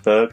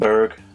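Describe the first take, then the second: First: It is said without the American R. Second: It has an American R sound.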